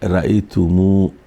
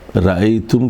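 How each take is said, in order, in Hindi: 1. शब्द एक लंबी u मात्रा पर खत्म होता है। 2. शब्द एक सादे m पर खत्म होता है। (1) "के बजाय रअयतुमू" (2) "रअयतुम के बजाय"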